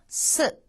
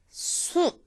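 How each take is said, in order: First: The vowel is said with relaxed, unrounded lips. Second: The vowel is said with lips pushed forward. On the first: The speaker calls it right. "이렇게 자연스럽게 발음을 하시면 됩니다" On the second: The speaker calls it wrong. "수 하는 식으로 입을 쭉 앞으로 내지 마시고요"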